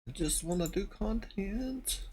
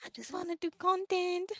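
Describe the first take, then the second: First: Slow, high-pitched whine; high whiny voice. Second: High mock whine, copying; high echoing whine. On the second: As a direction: echo the whine back, high. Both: Real, not acted.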